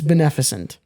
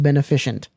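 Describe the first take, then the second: First: It has no extra 'ish' syllable before the ending. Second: It has an extra 'ish' syllable before the ending. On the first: "I think it's beneficent" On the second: "would be required for it to be pronounced beneficent"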